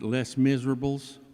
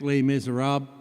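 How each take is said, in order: First: It is said with an anglicized local pronunciation. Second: It is said with a French pronunciation. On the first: This is how people from the speaker's hometown say it. The speaker calls it wrong. "I'm from Tomball. We pronounce it" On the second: This is the title's actual pronunciation. The speaker calls it right. "it is in fact"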